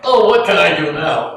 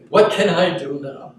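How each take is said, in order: First: It sounds exasperated and helpless. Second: It sounds calm and quietly open.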